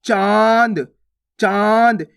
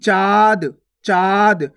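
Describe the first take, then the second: First: चाँद with a long vowel through nose and mouth; nasalised vowel. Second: चाँद read as चाद, vowel purely oral; no nasalisation. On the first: Teacher adding the chandrabindu, long nasalised चाँद. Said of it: "नाक और मुंह दोनों से उच्चारण हो रहा है". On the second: Teacher reading it with no mark, oral चाद for चाँद. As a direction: say चाँद without any nasal sound. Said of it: "कोई सी मात्रा नहीं है". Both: Shown as a demonstration.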